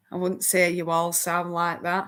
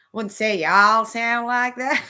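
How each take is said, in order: First: Said in the usual way. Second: A light American southern drawl on this line; playful take on a southern American drawl. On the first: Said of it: "I can do a bit of a southern". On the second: Shown as a demonstration. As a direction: stretch the vowels in a lazy southern drawl. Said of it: "I can do a bit of a southern drawl".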